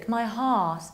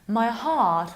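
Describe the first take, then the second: No difference in how they are said.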